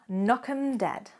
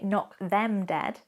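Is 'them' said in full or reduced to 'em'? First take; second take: reduced; full. First: The word 'them' is reduced to 'em'. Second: The word 'them' is said in full. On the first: "I omit those two letters and instead I say" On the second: "I don't say knock them dead"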